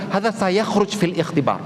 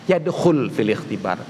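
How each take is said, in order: First: Slow, higher, emphatic; emphatic Arabic exam tip; slow emphatic claim. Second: Low, slow, deliberate; slow correct phrase. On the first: Retold or imitated. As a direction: stress sayakhruj slowly. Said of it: "Ngomong ke temannya". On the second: Shown as a demonstration. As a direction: lay out Yadkhul fil ikhtibar calmly. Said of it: "Dia berkata kan".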